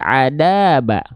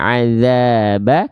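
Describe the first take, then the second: First: The middle consonant is a hard d sound. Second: The middle consonant is a soft th sound. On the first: The speaker calls it wrong. "tapi jadi adaba" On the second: The speaker calls it right. "yang harusnya azaba"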